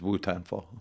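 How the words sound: It is said with an American accent.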